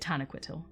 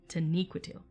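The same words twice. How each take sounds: First: The stress falls on the syllables ta and que. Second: The stress falls on the syllable ni. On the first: The speaker calls it wrong. "where I put ta and que as as the emphasis of the word" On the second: The speaker calls it right. "with ni being the emphasis"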